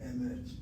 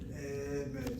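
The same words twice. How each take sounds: First: The first vowel is a reduced e. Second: The first vowel is a full e. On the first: The speaker calls it right. "one chataf segod and the other one is a segod" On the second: The speaker calls it wrong. "It's not emet, two segos"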